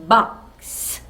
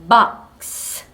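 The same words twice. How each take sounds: No difference in how they are said.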